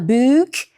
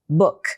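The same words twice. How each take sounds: First: The vowel is long and drawn out. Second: The vowel is short and clipped. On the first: The speaker calls it wrong. "a gente não fala book, longo assim" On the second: The speaker calls it right. "a gente fala mais curto"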